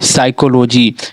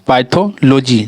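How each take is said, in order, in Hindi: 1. इस शब्द की शुरुआत S की आवाज़ से होती है। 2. इस शब्द की शुरुआत में P बोला जाता है। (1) "ये पी हमारा साइलेंट है, इसी कारण से इसे हम पढ़ेंगे साइकोलॉजी" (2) "पाइथोलॉजी पढ़ा रहा है"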